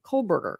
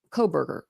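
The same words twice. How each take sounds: First: "Kohlberger" with the L lightly sounded; own pronunciation. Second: "Kohlberger" with the L dropped, koh-burger; own pronunciation. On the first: Streamer testing how she says the name, L kept. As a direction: say "Kohlberger" as kohl-burger, L kept. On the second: Streamer testing how she says the name, L dropped. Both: Shown as a demonstration. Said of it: "I think I say".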